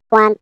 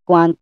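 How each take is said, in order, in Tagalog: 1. Pinroseso ang boses para maging mas manipis. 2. Pinroseso ang boses para maging mas makapal. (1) "para mas lumiliit yung voice natin" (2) "Medyo mas kumakapal ng konti yung boses natin pag sa kaliwa"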